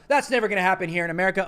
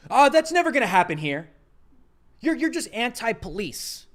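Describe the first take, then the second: First: Fast mocking quote. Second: Mocking conservatives. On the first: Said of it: "conservatives go". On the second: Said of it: "and they say".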